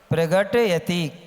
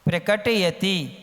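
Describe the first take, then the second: First: The sound after 'pra' is a g sound. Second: The sound after 'pra' is a k sound. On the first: The speaker calls it wrong. "क्या बोलते हो आप लोग?" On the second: The speaker calls it right. "प्रकट है, प्रगट नहीं है, गा नहीं है"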